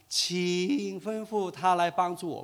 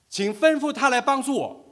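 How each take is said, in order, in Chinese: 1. 这句话是用温和、商量的语气说的。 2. 这句话是用强硬、命令的语气说的。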